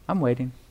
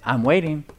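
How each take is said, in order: First: It sounds cheerful and kind. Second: It sounds impatient and annoyed.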